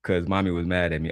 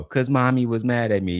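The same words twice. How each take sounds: First: Said in the usual way. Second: Lightly voiced little kid; a hint of a whiny child. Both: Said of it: "said my comment in a little kid voice".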